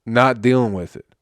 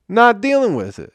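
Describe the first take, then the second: First: Said in the usual way. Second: Higher, louder exasperated repeat; exasperated outburst. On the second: Real, not acted. Podcaster fed up with drunk fans, exasperated high outburst. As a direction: throw it up high in disbelief.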